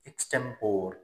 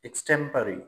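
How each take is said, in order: First: The word ends in 'por' with no final vowel. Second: The word ends in a final 'ree' syllable. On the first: The speaker calls it wrong. "अक्सरियत लोग एक्सटेम्पोर बोलते हैं" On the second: The speaker calls it right. "It's correct pronunciation is एक्सटेम्परी"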